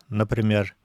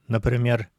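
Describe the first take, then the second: No difference in how they are said.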